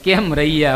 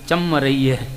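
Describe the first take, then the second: First: It is said in standard Gujarati. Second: It is said in a North Gujarat dialect. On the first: "કેમ રહીએ આપણે" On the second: "અહીંયા આગળ તમે બોલો ચમ રહીએ"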